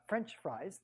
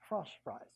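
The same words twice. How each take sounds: First: French is said with a plain English vowel. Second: French is said with a nasal French vowel. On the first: The speaker calls it wrong. "not French fries" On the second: The speaker calls it right. "we pronounce it like it's French"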